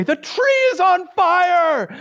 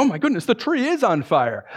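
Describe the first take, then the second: First: High, loud, drawn-out alarm cry; acted alarm shout. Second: Higher voice, not shouted; gasp-like realisation, put on; acted astonishment. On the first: Friend pointing at the nearest tree, acted alarm shout. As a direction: shout it slowly like raising the alarm. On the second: You at first glance at the tree, acted astonishment.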